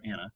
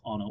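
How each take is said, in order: First: "Anna" opening like "Ann"; short-a pronunciation. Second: "Anna" opening on an ah sound; broad-a pronunciation. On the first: Forecaster weighing the other storm-name pronunciation, "Anna" as AN-uh. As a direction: pronounce "Anna" as AN-uh. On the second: Forecaster unsure of the storm's official name, "Anna" as AH-nuh. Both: Shown as a demonstration. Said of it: "not sure the actual official pronunciation".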